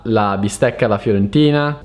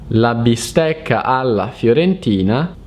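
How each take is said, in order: First: It is read fast, at normal speed. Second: It is read slowly and carefully.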